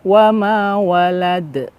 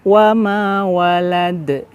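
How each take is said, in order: No difference in how they are said.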